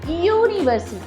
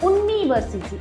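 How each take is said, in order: First: The word begins with a 'y' sound. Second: The word begins with a plain vowel sound. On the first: The speaker calls it right. "It is university. So because of the sound, it U" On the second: The speaker calls it wrong. "not university. It is a wrong pronunciation"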